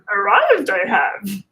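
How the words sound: It is said in a put-on creature voice.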